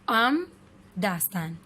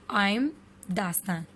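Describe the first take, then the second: No difference in how they are said.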